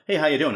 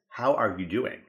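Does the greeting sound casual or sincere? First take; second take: casual; sincere. First: It is tossed off casually in passing. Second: It is said slowly and sincerely.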